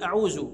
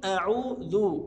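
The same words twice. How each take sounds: First: "أعوذ" said with a z for the ذ; dhal as zay. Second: "أعوذ" with a voiced th sound for ذ; proper dhal. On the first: Retold or imitated. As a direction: turn the ذ of "أعوذ" into a z. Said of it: "دي كده انقلبت إلى زاي". (نطق ذال "أعوذ" زايًا) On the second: Shown as a demonstration. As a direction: draw out "أعوذ" with an interdental ذ. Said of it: "الصح إن أقول". (نطق ذال "أعوذ" من طرف اللسان)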